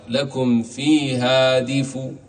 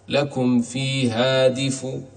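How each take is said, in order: First: The final sound carries a faint, partial vowel. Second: The final sound carries a faint, partial vowel.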